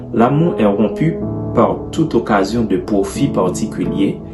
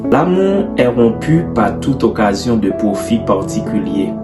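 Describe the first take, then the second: No difference in how they are said.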